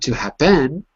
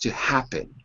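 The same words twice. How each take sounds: First: The stress is on the second syllable. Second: The stress is on the first syllable. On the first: The speaker calls it wrong. "It's not to happen" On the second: The speaker calls it right. "it's to happen"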